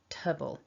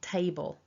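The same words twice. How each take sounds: First: The first vowel is reduced to a weak schwa. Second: The first vowel is a full A sound. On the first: It is the unstressed ending of comfortable. "But in this word it becomes weak" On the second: It is the word for the piece of furniture. "has an A"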